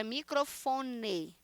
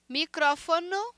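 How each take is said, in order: First: Slow "microfone" stressed on FO; Portuguese stress on FO. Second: "Micrófono" stressed on CRÓ, ending -no; Spanish stress on CRÓ. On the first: Teacher showing Portuguese, "microfone" slowly stressed on FO. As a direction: lean on FO in "microfone". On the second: Teacher contrasting with Portuguese, "Micrófono" stressed on CRÓ. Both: Shown as a demonstration. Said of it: "microfone em português".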